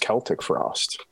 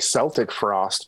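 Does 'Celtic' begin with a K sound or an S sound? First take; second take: K sound; S sound. First: Celtic begins with a hard K sound. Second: Celtic begins with a soft S sound. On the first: This is the technically correct way to say it. The speaker calls it right. "but technically it's Celtic Frost" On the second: This is the common casual way people say it. The speaker calls it wrong. "I always used to say Celtic Frost because that's what all my friends said"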